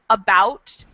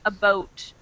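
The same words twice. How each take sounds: First: The vowel is the speaker's usual American sound. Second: The vowel is changed the Canadian way. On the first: "I say about" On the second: "they say about"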